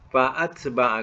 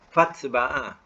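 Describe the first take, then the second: First: The vowel after the first syllable is sounded. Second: The vowel after the first syllable is dropped. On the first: The speaker calls it right. "dia tidak eh, dibuang uh, dalam bunyi" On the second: The speaker calls it wrong. "Tak ada dibaca fat ba'a"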